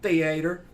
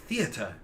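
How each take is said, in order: First: It is said in a Southern American accent. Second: It is said in a British accent.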